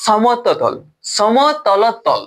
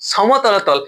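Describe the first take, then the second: First: সমতলতল sounded out very slowly syllable by syllable; drawn out. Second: Said in the usual way. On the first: Shown as a demonstration. Teacher struggling to pronounce the term for students, slow. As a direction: say সম-ত-ল-তল slowly and carefully. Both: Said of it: "উচ্চারণে হচ্ছে না".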